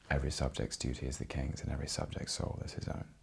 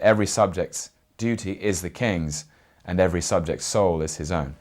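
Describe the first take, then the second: First: It is spoken quietly, at conversational volume. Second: It is spoken loudly, projected to fill a room. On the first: It suits a small space with a microphone. "I could never speak at this volume in the National" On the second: It suits a large theatre without a microphone. "I would have to at least project"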